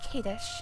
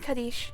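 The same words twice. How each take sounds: First: The first vowel is a long A sound. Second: The first vowel is a short, neutral sound. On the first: The speaker calls it right. "if you ever see an A, it's pronounced as a long A" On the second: The speaker calls it wrong. "I was calling him Kaddish yesterday"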